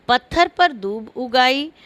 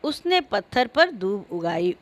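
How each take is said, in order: First: "उगाई" split into उग and आई; a small break inside "उगाई", after उग; उग आई as two words. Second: "उगाई" joined without a break; उगाई as one word. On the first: ("उगाई" में उग और आई अलग-अलग) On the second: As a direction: say "उगाई" as a single word, no gap after उग. ("उगाई" बिना रुके, एक शब्द में) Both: Shown as a demonstration. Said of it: "उग आई और उगाई".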